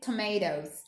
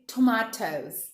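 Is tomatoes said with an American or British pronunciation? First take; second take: American; British. First: It is said with an American pronunciation. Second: It is said with a British pronunciation. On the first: "You can say tomatoes" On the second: "we are learning British English, so we say tomatoes"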